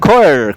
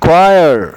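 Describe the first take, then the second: First: It starts with a kh sound, khoyar. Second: It starts with a kw sound, kwayar. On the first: The speaker calls it wrong. "हम कहते हैं खोयर" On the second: The speaker calls it right. "बोलते क्वायर"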